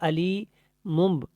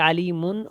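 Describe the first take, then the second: First: The word ends with m plus a b sound. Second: The word ends with a clear n sound. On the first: "बा के साथ नहीं मिलाएंगे" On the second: "ऐसे नहीं पढ़ेंगे"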